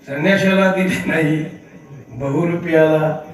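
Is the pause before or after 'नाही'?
after. The pause falls after the word 'नाही'. It was not given to the renunciant but to the impersonator.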